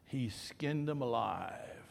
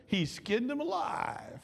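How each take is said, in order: First: Slow whispered confidence; retold whisper. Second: Higher, slow, wondering repeat; plain repeat. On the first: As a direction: lean in and whisper it slowly, like a secret. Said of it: "the funeral home guy said". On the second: Shown as a demonstration. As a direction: say it again higher and slow, savoring it. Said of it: "does that sound good?".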